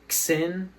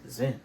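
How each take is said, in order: First: The name begins with a sound other than z. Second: The name begins with a plain z sound. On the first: The speaker calls it wrong. "Some people pronounce it Xin or something like that" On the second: The speaker calls it right. "It's Zin"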